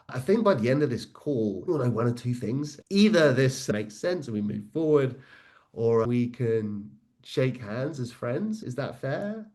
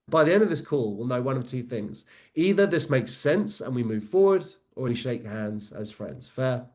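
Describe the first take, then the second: First: It sounds hesitant, with a rising question. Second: It sounds confident, with no rise on the question.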